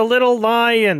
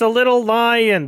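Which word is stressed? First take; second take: lion; lion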